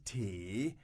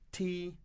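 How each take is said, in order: First: The pitch dips low and then rises. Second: The pitch stays high and level. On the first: Still no answer to the offer. "which is like the third tone in Chinese" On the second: A plain offer of tea. "the first time she says to them"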